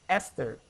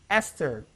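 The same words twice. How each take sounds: No difference in how they are said.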